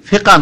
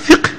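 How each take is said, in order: First: The word ends in an open vowel sound. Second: The word ends with a final h sound. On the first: The speaker calls it wrong. "আমরা ওইটাকে একটু বিকৃত করে বলি, ফিকা নয়" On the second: The speaker calls it right. "আসলে ফিকহ"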